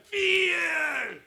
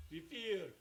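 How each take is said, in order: First: Fear yelled high and loud; shouted word. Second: Said in the usual way. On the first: Shown as a demonstration. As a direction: blast out Fear to drown phones. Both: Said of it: "소리를 지르냐면".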